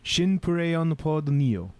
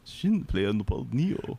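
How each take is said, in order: First: "Shin Play on the Pod Neo" said slowly, with Play sounding like "puree"; Japanese pronunciation. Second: "Shin Play on the Pod Neo" repeated slowly, with Play as plain English "play"; careful repeat of "Shin Play on the Pod Neo"; English pronunciation. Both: Shown as a demonstration. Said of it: "they say it correctly".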